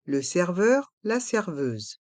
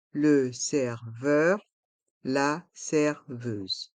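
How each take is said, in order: First: Said in the usual way. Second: "Le serveur, la serveuse" syllable by syllable, slowly; slow model pronunciation. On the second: Shown as a demonstration. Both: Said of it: "Prononçons".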